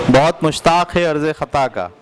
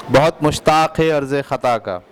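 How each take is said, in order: No difference in how they are said.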